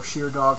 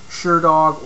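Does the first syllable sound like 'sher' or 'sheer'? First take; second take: sheer; sher. First: The first vowel sounds like 'sheer'. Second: The first vowel sounds like 'sher'. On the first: "however you wish to pronounce it" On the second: "however you wish to pronounce it"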